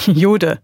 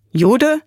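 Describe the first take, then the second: First: "Jude" falling, as a statement; plain statement. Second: "Jude" higher, with a rising question tune; questioning echo. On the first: David identifies himself to the soldier, "Jude" as falling statement. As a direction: state "Jude" simply, tune going down. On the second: Soldier questions David's answer, "Jude" as high rising question. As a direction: echo "Jude" back, sweeping up in pitch. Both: Acted.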